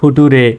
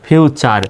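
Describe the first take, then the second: First: The middle consonant is a plain t sound. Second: The middle consonant is a ch sound. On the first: The speaker calls it wrong. "অনেকে এটাকে কিন্তু এভাবে উচ্চারণ করতে পারে" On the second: The speaker calls it right. "ফিউচার উচ্চারণ হবে"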